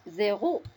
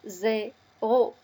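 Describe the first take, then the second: First: Said in the usual way. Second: "zéro" as two separate syllables, zé, ro; teacher's syllable-by-syllable "zéro"; split into syllables. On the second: Shown as a demonstration. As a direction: sound out "zéro" with a pause between zé and ro. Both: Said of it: "L'association de ces syllabes".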